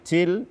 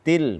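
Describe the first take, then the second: First: The t has an exaggerated heavy puff of breath. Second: The t has a light puff of breath. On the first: The speaker calls it wrong. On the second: The speaker calls it right.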